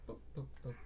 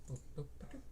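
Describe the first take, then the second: The two takes are said the same way.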